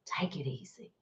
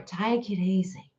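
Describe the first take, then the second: First: Barely audible whisper, much softer; faint soothing whisper; fainter whisper. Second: Soft calming whisper; gentle breathy hush. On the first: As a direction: let it fade to a hush. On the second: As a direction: whisper it to soothe them. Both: Shown as a demonstration.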